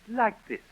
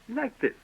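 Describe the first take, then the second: The two takes are said the same way.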